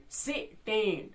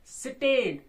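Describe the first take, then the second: First: stand slowly split into two beats; stand drawn out syllable by syllable. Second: Said in the usual way. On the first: Shown as a demonstration. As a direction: say stand broken in two, with a gap. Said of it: "दो दो syllables में break हो रही है". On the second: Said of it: "एक line में एक word रखा".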